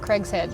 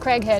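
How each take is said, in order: First: An 's' sound joins the two parts. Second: There is no 's' sound in the middle. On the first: The speaker calls it wrong. "not Craig's head" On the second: The speaker calls it right. "It's Craighead"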